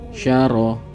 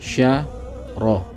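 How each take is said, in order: First: The two syllables are joined quickly together. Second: The two syllables are said separately, apart.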